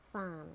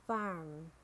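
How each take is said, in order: First: "farm" with a British silent R; British "farm", said fahm; British accent. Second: "farm" with a sounded American R; American "farm", curl the R before m; American accent. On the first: Teacher models farm for learners, British accent. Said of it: "in British English". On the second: Teacher models farm for learners, American accent. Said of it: "R in American English". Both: Shown as a demonstration.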